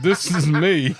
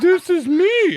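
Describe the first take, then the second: First: It is said in his natural voice. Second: It is said in a made-up voice.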